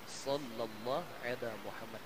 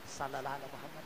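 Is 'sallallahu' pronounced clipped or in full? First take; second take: full; clipped. First: The word sallallahu is pronounced in full. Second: The word sallallahu is clipped to salalah. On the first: The speaker calls it right. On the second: The speaker calls it wrong.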